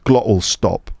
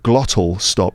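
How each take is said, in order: First: The middle T is replaced by a glottal stop. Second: The middle T is pronounced clearly. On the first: "you end up with glottal stop" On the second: "instead of"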